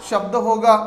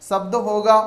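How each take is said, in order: No difference in how they are said.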